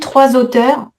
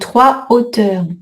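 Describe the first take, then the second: First: A z sound links the two words. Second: The two words are kept separate, no z. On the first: The speaker calls it wrong. "Si vous dites trois auteurs, c'est trois écrivains" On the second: The speaker calls it right. "H aspiré aussi"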